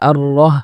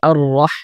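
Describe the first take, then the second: First: The h is a light, plain h sound. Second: The h is a deep, throaty h sound. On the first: The speaker calls it wrong. "অনেকে পড়ে আর রহ" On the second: The speaker calls it right. "এখানে হবে আর রহ"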